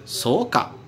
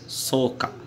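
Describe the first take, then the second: First: The pitch rises at the end. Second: The pitch falls at the end. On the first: The listener doubts what was said. "você aumentando o tom no final" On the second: The listener agrees with what was said. "no final, você abaixa o tom"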